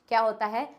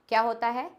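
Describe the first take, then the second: No difference in how they are said.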